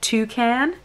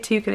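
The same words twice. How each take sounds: First: It is said in an American accent. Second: It is said in a British accent. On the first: "Terrible American accent" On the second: "we say toucan in England"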